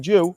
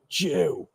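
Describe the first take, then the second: First: The word is said in a plain, neutral tone. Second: The word is said in a sneering, contemptuous tone. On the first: It is an ordinary, acceptable use of the word. The speaker calls it right. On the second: It comes across as a racist insult. The speaker calls it wrong. "now it's fucking racist"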